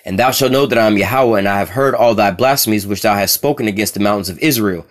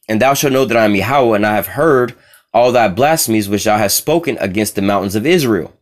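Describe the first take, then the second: First: It is read at a normal pace. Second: It is read slowly.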